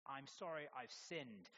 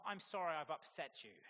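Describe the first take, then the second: First: Slow, sincere, owning the sin; an honest, unhurried confession; sincere apology. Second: Louder, brisker non-apology; a defensive half-apology said louder; deflecting apology. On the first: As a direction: say it slowly and mean it. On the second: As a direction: push the blame back with a hollow sorry. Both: Shown as a demonstration.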